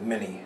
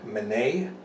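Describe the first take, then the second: First: The name is said with an American pronunciation. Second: The name is said with a French pronunciation. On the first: "Americans just pronounced it Mini" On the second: "a French captain named Minet"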